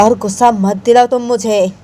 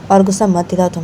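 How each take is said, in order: First: Raised, insistent acted warning; heated, higher-pitched threat; angry warning. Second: Said in the usual way. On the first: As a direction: warn them with mounting temper. Warning repeated more angrily.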